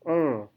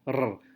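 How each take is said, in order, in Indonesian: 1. Bunyi r halus, tanpa getaran lidah. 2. Bunyi r digetarkan dengan lidah yang bergetar. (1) "Tapi dalam bahasa Inggris R-nya lidah tidak bergetar" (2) "Dalam bahasa Indonesia kita mengucapkan R dengan getaran"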